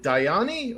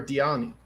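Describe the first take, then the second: First: "Diani" said as die-AH-nee; asking how to pronounce the name, "Diani" with a long I; DIE-ah-nee pronunciation. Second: "Diani" said as dee-AH-nee; offering the other option, "Diani" with an ee sound; DEE-ah-nee pronunciation. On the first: Host asks creator about a name, "Diani" starting like "die". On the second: Host asks creator about a name, "Diani" starting like "dee". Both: Shown as a demonstration. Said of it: "how do you pronounce it".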